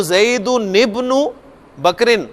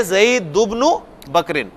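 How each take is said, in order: First: "ज़ैदुनिब्नु" with a clear ni linking du to bnu; full tanween reading. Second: "ज़ैदुब्नु" said as zaidu-bnu, with no ni; tanween dropped. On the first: Teacher contrasting the longer form, tanween fully sounded. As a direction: sound the n in "ज़ैदुनिब्नु", then "बकरिन" after a short pause. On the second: Teacher giving the easier form instead, tanween dropped. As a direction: du joins straight to bnu in "ज़ैदुब्नु", then "बकरिन". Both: Shown as a demonstration. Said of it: "उसकी बजाय".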